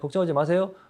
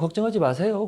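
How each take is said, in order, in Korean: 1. 이 표현은 퉁명스럽고 무덤덤하게 들립니다. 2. 이 표현은 부드럽고 따뜻하게 들립니다. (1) "묵뚝뚝한 이 여성분과" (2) "어디가 듣기 좋게, 좋습니까?"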